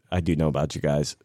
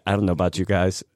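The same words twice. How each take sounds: First: "do" given the weight, said lower; "I do know" with emphasis on "do"; stress on do. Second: "dont" leaned on; "don't" stressed, rest level. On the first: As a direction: correct yourself by hitting "do". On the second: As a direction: push "don't know" as the point. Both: Shown as a demonstration.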